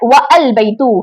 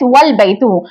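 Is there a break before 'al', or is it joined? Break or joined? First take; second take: break; joined. First: A separate break is heard before al. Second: Wa runs straight into al without a break. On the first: The speaker calls it wrong. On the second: The speaker calls it right. "pronounced as"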